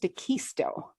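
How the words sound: The name has a Spanish-influenced pronunciation. "there's a lot of Spanish influence here, and it's pronounced DeQuisto, like conquistador"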